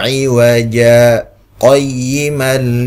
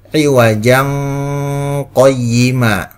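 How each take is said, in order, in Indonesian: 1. Ada saktah singkat yang memisahkan kedua kata itu. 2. Kedua kata itu tersambung tanpa jeda. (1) "wajib saktah" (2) "tanpa saktah atau tanpa berhenti sejenak"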